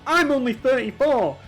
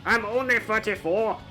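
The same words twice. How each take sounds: First: It is said in the speaker's normal accent. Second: It is said in a put-on Scottish accent.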